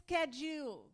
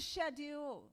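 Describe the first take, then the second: First: It is said the way people here say it. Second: It is said in the speaker's home accent.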